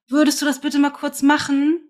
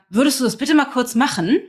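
First: It sounds helpless and small, pleading. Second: It sounds reproachful, with an accusing tone.

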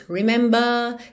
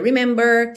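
First: The final R is dropped, British style. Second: The final R is curled, American style.

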